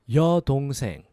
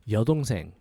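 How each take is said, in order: First: It is said slowly. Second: It is said faster.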